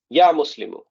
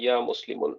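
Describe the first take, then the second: First: Ya Muslimu, single u ending, called out; correct Arabic call. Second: Ya Muslimun, with the extra n sound at the end; wrong form. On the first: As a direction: say Ya Muslimu with the short final u. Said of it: "That's how you would call it". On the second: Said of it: "This is wrong". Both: Shown as a demonstration.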